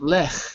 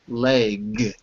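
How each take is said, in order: First: The word ends without a g sound. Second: The word ends with a g sound. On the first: The speaker calls it wrong. "not lech" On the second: The speaker calls it right. "but leg ... with a g"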